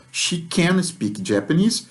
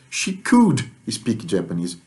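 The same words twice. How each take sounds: First: Slow, with "can" rising and stressed. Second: Slow, with "could" stressed and falling. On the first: Teacher contrasting present with past, stressing "can". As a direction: lean on "can" and let it lift. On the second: Teacher contrasting past with present, stressing "could". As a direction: hit "could" firmly. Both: Shown as a demonstration. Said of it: "Eu só mudei o verbo anômalo".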